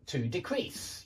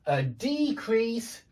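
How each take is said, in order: First: Decrease stressed on the second syllable, softer; verb stress. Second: Decrease stressed on the first syllable, high, slow; noun stress. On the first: Teacher drilling nouns against verbs, second-syllable stress on decrease. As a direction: land on CREASE in decrease. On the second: Teacher drilling nouns against verbs, first-syllable stress on decrease. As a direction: hit DE in decrease. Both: Shown as a demonstration. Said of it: "hear me changing the position of the stress".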